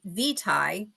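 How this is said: The word is said the British way. "if you're British"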